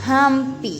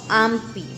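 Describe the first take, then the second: First: The word starts with a breathy h-like sound. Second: The word starts directly with the vowel. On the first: The speaker calls it right. "la H se convierte en la J y nosotros este, pronunciamos así" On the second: The speaker calls it wrong. "no ampi"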